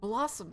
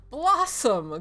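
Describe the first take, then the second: First: Said in the usual way. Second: Loud, high delighted exclamation; crying out. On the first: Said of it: "says the little girl". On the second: Acted. Priest repeats the little girl's name, crying out. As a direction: exclaim it, pitched up and falling. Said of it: "cries the priest".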